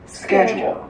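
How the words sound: It is said with an American pronunciation. "美式发音是schedule"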